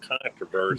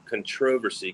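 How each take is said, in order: First: It is said the non-British way. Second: It is said the British way. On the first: "not controversy" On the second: "Classy people say it that way"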